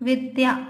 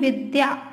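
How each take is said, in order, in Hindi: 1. पहला स्वर छोटा है। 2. पहला स्वर छोटा है।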